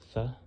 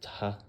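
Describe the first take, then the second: First: It is a th sound. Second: It is a t sound with a vowel. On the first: "in Greek, this made a T H sound" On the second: "in Coptic, it's more commonly uh, tau plus um, the hore"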